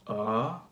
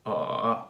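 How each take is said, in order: First: "uh" gliding up from middle to high; second tone, rising. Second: "uh" begun low in the voice; third tone, starting low. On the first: Teacher demonstrating Mandarin second tone, "uh" rising middle to high. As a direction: lift the pitch through "uh". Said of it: "second tone goes from middle to high". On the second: Teacher demonstrating Mandarin third tone, "uh" starting low. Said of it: "the third one starts pretty low". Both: Shown as a demonstration.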